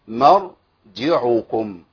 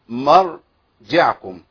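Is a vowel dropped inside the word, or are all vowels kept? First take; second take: all vowels; vowel dropped. First: Every letter keeps its vowel, with none silenced. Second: One inner letter is left silent, without its vowel. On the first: The speaker calls it right. "هي مرجعكم" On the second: The speaker calls it wrong. "انا كده قرأتها خطأ"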